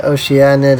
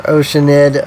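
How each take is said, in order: First: Oceanid said as oh-shee-AN-id, four syllables; oh-shee-AN-id pronunciation. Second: Oceanid said as OH-shuh-nid, three syllables; OH-shuh-nid pronunciation. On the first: Streamer unsure of the name, Oceanid as oh-shee-AN-id. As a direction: put an AN in the middle of Oceanid, oh-shee-AN-id. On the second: Streamer trying out ways to say the name, Oceanid as OH-shuh-nid. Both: Shown as a demonstration. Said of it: "however you say it".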